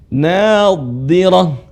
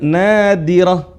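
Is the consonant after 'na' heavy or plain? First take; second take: heavy; plain. First: The middle consonant is thick and emphatic. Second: The middle consonant is a plain light d. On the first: The speaker calls it right. "Huruf dha dibaca tebal" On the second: The speaker calls it wrong. "bukan nadirah, bukan kayak huruf dal"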